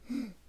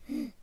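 The two takes are said the same way.

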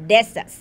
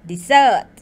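First: The stress is on the first syllable. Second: The stress is on the second syllable. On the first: It means a dry sandy region. "เน้นพยางค์ต้นเช่น" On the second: It means to abandon. "ถ้าเราเน้นพยางค์หลังเช่น"

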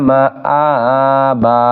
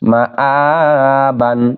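First: The word ends on a plain a vowel. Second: The word ends with a final n sound. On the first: The reciter stops at this word. "অক্ষ করিলে" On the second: The reading continues past this word. "মা আ বা আলিফ দুই জবর বান"

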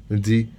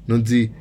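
No difference in how they are said.

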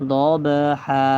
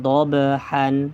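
First: The word ends with a long vowel. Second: The word ends with an n sound. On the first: The recitation stops at this word. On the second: The recitation continues without stopping.

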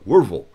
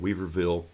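First: The name is said in a shortened local form. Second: The name is said fully, as written. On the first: This is how people from the town say it. "If you're from there, it's called" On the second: This is how outsiders say the name. "There's a little town called Weaverville"

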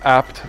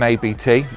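First: The name is said as one word. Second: The name is spelled out letter by letter. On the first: It is a family name. The speaker calls it right. "The company is ABT" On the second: It is taken for an acronym. The speaker calls it wrong. "rather than ABT"

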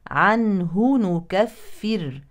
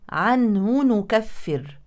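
First: The h sound is heard clearly before n. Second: The h sound merges into the following n. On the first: The speaker calls it right. "الأول بينوا الهاء وبعدين ادخلوا على النون القادمة" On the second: The speaker calls it wrong. "فالبعض يقول عنه نكفر. دخلت الهاء في النون القادمة"

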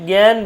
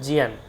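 First: The word is said in the usual Bengali way. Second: The word is said as 'jiyan'. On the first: The speaker calls it wrong. "আমরা এতদিন ধরে শিখে আসছি জ্ঞান বিজ্ঞান" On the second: The speaker calls it right. "জ্ঞানের উচ্চারণ হচ্ছে জিয়ান"

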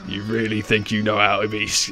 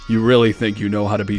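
First: It is said in a plain, normal speaking voice. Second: It is said in a put-on character voice. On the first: The speaker calls it wrong. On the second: The speaker calls it right.

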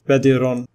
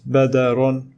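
First: An i vowel is heard after the d. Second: An a vowel is heard after the d. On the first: "nor it is badirun with kasra" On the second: "It is not badarun with fatha"

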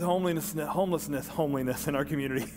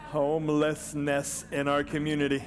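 First: The words are slurred and unclear. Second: The words are articulated clearly and distinctly. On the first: The speaker calls it wrong. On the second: The speaker calls it right.

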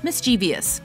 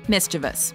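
First: An extra 'ee' sound comes before the ending. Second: No extra sound comes before the ending. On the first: The speaker calls it wrong. "Common mispronunciation" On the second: The speaker calls it right. "Correct pronunciation"

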